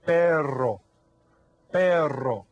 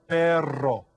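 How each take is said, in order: First: Perro with the rr trilled hard, loud; rolled double R. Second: Perro with a trilled rr, loud; rolled double R. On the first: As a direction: repeat perro with a strong trilled rr. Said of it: "Can everybody say that?". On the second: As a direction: roll the rr in perro clearly. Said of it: "you hear the double R there?". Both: Shown as a demonstration.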